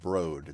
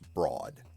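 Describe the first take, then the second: First: The word is said with the kid's odd pronunciation. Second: The word is said with the standard pronunciation. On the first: The speaker calls it wrong. "that's not broad" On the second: The speaker calls it right. "that's broad. Like something is broad, it's wide"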